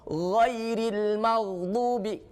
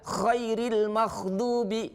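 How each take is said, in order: First: The first word begins with a voiced gh sound. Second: The first word begins with a voiceless kh sound. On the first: The speaker calls it right. "huruf gho" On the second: The speaker calls it wrong. "karena kita tidak berhati-hati maka jadilah khairil maghdubi"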